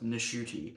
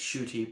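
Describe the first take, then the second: First: The name starts with an N sound. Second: The name starts with a sh sound, no N. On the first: The speaker calls it right. "you have to pronounce the N in that" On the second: The speaker calls it wrong. "apparently he just went by saying it's Shooty"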